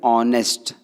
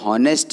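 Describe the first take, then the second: First: The word begins directly with a vowel. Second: The word begins with an h sound. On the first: The speaker calls it right. "ऑ का sound" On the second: The speaker calls it wrong. "हॉनेस्ट ना होते हुए"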